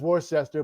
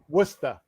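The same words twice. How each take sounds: First: It is said the common, non-local way. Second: It is said in a local Boston accent. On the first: This is how outsiders say it. The speaker calls it wrong. "Everyone says Worcester" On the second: This is how locals say it. The speaker calls it right. "but it's Worcester"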